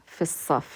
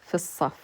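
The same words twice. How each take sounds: No difference in how they are said.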